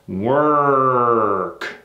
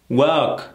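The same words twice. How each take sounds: First: The R sound is tight and growled. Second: The R sound is loose and relaxed. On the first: The speaker calls it right. "clenching your teeth, tightening and choking on your tongue like a bear" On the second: The speaker calls it wrong. "See how loose that is?"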